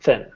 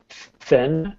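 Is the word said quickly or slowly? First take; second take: quickly; slowly. First: The word is said quickly and rushed. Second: The word is said slowly and carefully. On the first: The speaker calls it wrong. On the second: The speaker calls it right. "I want to try and slow you down a little bit"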